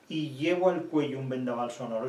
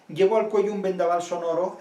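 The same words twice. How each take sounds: First: Said in the usual way. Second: Louder, higher, stressing "Llevo" like a gust of wind; heroic verse emphasis. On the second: Shown as a demonstration. Lecturer rereading the line to show its roaring sound, louder and emphatic. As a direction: declaim "Llevo al cuello" with full heroic breath. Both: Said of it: "Estos dos últimos son heroicos".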